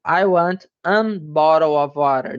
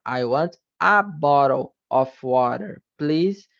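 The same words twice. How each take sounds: First: An said clearly before bottle, an bottle; an before bottle pronounced on purpose as the mistake; wrong article. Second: A said as a plain schwa before bottle; a before bottle, the right article, said short; correct article. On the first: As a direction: demo of the error, saying an bottle of water. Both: Shown as a demonstration. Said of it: "Não, é o".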